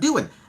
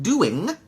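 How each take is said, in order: First: The final G sound is dropped. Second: The word ends with a full 'ing' sound. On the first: "We're dropping that G sound" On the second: "We're not saying doing, ing"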